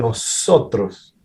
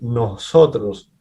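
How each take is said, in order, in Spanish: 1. Los sonidos de la s se pronuncian completos y claros. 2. Los sonidos de la s se pronuncian más suaves y débiles. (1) "no dicen nosotros" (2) "hacen la S más suave"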